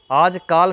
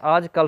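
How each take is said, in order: First: आजकाल with a long "kaal", the wrong way; wrong form aajkaal. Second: आजकल with a short "kal"; correct form aajkal. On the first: Teacher demonstrating the wrong word to students, long "kaal". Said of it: "आजकाल सही नहीं है". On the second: Teacher giving students the correct word, short "kal". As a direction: say आजकल crisply as "aaj-kal", short final a. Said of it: "आजकल सही होता है". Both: Shown as a demonstration.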